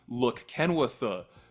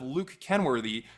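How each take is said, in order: First: The vowels are all flattened toward an uh sound. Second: The vowels are pronounced with their full distinct sounds.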